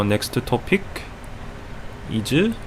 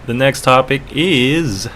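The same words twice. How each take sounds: First: Hesitant put-on Korean accent. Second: Said in the usual way. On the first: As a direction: say it haltingly in a Korean accent, searching. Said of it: "with the Korean accent".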